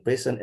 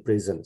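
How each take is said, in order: First: "present" as PREH-sen; first pronunciation. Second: "present" as pri-ZEN; second pronunciation. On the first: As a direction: say "present" like the noun for a gift. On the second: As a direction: say "present" like the verb, buzzed z. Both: Shown as a demonstration. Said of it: "How to pronounce".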